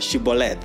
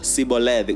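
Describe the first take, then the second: First: The word begins with a 'sh' sound. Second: The word begins with a plain 's' sound. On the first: It marks the speaker as a Gileadite. "they would tell them to say the word Shibboleth" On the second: It marks the speaker as an Ephraimite. "They would say Siboleth. Sibo, Siboleth, without she"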